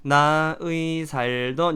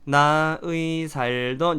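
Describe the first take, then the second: First: The second syllable is pronounced as 'ui'. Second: The second syllable is pronounced as 'ui'.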